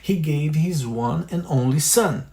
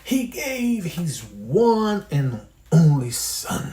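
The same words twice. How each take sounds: First: The sentence is said at normal speed. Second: The sentence is said with strong emotion. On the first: "Depois a velocidade normal" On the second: "E depois com emoção"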